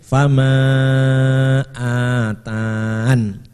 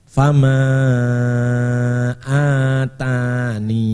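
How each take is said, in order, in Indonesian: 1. Kata itu berakhir dengan huruf n tanpa vokal. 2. Kata itu berakhir dengan vokal akhir ee. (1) "tanpa ya" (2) "Atau fama atani"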